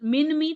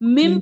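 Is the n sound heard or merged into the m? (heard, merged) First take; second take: heard; merged. First: The n is pronounced separately before the m. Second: The n is dropped and merged into the m. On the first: The speaker calls it wrong. "थोड़ी ना पढ़ेंगे" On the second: The speaker calls it right. "मिम पढ़ेंगे"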